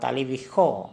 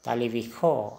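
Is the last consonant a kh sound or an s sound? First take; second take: kh sound; kh sound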